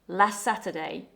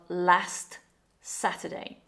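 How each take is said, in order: First: The T in last is dropped or very weak. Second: The T in last is fully pronounced. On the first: "closer to last Saturday" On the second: "instead of last Saturday"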